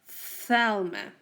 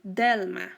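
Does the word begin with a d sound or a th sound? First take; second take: th sound; d sound. First: The word begins with a blown th sound. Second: The word begins with a d sound. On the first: The speaker calls it right. "No, you say Thelma" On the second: The speaker calls it wrong. "You don't say Delma"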